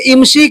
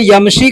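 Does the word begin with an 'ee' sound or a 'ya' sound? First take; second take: ee sound; ya sound. First: The word begins with an 'ee' sound. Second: The word begins with a 'ya' sound. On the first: "कुछ लोग इमशी कहते हैं" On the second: "चलने को अरबी में यमशी कहते हैं"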